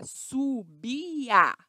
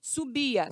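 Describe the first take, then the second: First: "subia" drawn out slowly as su-bi-a; syllable by syllable. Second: Said in the usual way. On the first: Shown as a demonstration. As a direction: stretch each syllable of "subia". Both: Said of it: "separe as sílabas".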